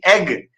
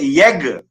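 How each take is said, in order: First: The word begins directly with a vowel. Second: The word begins with a y sound. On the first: "when they pronounce e double g egg" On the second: "they would say yeg"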